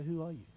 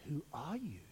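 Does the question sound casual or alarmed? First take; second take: casual; alarmed. First: It is asked in a calm, casual way. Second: It is asked in a startled, challenging way. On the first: A simple request for identity. The speaker calls it wrong. "It's not like that at all" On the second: A shocked challenge to a bold claim. The speaker calls it right. "whoa, wait a minute"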